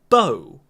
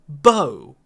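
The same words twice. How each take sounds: First: The vowel sounds like 'oh'. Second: The same.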